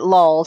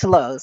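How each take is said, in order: First: The vowel sounds like the one in 'lull'. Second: The vowel sounds like the one in 'low'. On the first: This is how another person says the name. "he pronounces it lulls" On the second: This is the usual way to say the name. "It's it's lows"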